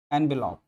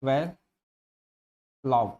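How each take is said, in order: First: Said in the usual way. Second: "envelope" stretched very slowly, sound by sound; drawn-out pronunciation. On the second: Shown as a demonstration. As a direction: spell out "envelope" slowly, each syllable held. ("envelope" को बहुत धीरे, हर ध्वनि खींचकर बोलें) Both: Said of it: "इसका phonetic transcription होता है".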